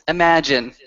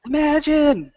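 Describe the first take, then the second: First: Said in the usual way. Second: High, stretched-out song request; crowd call-out. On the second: Acted. Kin requesting the next song from the player, high call-out.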